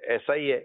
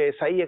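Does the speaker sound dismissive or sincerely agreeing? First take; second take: dismissive; sincerely agreeing. First: It sounds flat and dismissive. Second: It sounds warm and sincerely agreeing. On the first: The listener is only going along without real agreement. The speaker calls it wrong. "یہ بس ایسے نبھانے کی باتیں کر رہا ہے" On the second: The listener truly agrees. The speaker calls it right. "ایسا ہی ہے نے میری صحیح تائید کی"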